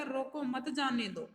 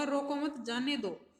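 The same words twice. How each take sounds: First: Slow रोको, then मत जाने दो as one group; break after रोको. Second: Slow रोको मत together, then जाने दो; break after मत. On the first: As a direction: set रोको apart from मत जाने दो. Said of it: "तो हो जाएगा". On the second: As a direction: keep मत attached to रोको, apart from जाने दो. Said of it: "और इसका होगा". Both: Shown as a demonstration.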